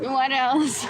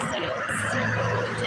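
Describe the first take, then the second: First: Said in the usual way. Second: Whispered what else. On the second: Shown as a demonstration. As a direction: breathe "What else?" with no voice at all. Repeated catchphrase, whispered take.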